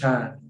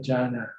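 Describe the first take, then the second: First: The word is one syllable, with no final na. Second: The word is two syllables, ending in na. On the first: This is the Thai way of saying it. "In Thai, we cut off the na, just Chan" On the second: This is the English way of saying it. "In English, you have to say Jana"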